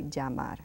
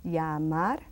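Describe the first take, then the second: First: Llamar with a zh sound, zhah-MAR; llamar, ll like the s in measure; Argentine llamar. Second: Llamar, ll like English y; Spanish llamar. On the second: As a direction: say llamar as yah-mar. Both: Shown as a demonstration. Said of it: "You can also say llamar".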